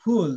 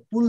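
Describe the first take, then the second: First: "ফুল" with a long, full oo. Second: "ফুল" the Bengali way, short u with puffed p; wrong short ফুল. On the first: Teacher models it for students, "ফুল" with long oo. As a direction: open up and stretch the u in "ফুল". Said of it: "জিহ্বাটা একটু বড় করতে হবে". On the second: Teacher warns against the everyday version, "ফুল" with short u. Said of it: "ফুল না কিন্তু". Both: Shown as a demonstration.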